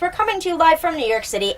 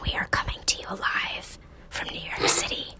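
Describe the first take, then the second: First: It is said in a normal voice. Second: It is whispered.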